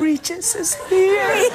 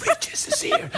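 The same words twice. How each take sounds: First: Slow, high, mock-creepy wail; drawn-out horror-trailer voice. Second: Very high, mock-creepy announcement; spooky falsetto, played for laughs; horror-trailer voice. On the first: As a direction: stretch it out spookily for a horror trailer. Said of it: "in the trailer you'd have that". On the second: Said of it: "a horror movie called The Regis".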